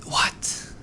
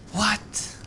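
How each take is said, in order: First: Whispered what. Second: High rising surprised what. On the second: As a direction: ask it in high disbelief. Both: Real, not acted. Surprised reaction to a find.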